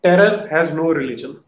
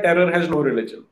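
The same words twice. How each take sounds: First: "Terror has no religion" drawn out slowly, louder; slow quoted line. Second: "Terror has no religion" said slowly at normal level; slower quoted line. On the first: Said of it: "एक line screen पे आती है". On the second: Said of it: "वो एक line लिख देता है". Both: Retold or imitated.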